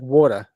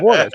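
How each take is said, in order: First: Water ending in an open "a", no R; wife's pronunciation of Water. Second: Water with a clear final R; corrected pronunciation of water. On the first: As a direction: imitate her Water as "waw-tuh". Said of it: "my wife's like". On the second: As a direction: correct her: water, ending in "er". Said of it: "I go, "It's water". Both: Retold or imitated.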